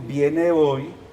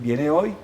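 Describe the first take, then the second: First: The voice falls at the end like a statement. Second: The voice rises at the end like a question. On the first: It states a fact. "si yo digo viene hoy, significa algo" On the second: It asks a question. "si le pongo interrogación"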